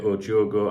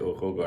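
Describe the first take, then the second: First: The second word starts with a J sound. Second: The second word starts with an H sound. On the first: This is how some other people say it. "Some people say O Jogo" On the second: This is how the speaker would say it. "I would say O Hogo"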